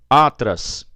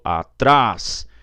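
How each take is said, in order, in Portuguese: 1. A tônica está na primeira sílaba. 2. A tônica está na última sílaba. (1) "Chama no parquinho" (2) "Eu falo atrás"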